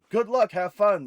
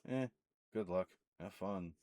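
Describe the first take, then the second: First: It sounds sincere and friendly. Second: It sounds dismissive and indifferent.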